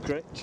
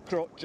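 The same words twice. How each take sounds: First: Critch with a short i as in "rich"; pronounced Critch. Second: Crutch with a short u as in "much"; said as spelt. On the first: Kayaker correcting the island's spelling, pronounced Critch. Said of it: "but pronounced Critch". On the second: Kayaker giving the island's spelling, said as spelt. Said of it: "Spelt Crutch or something like that". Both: Shown as a demonstration.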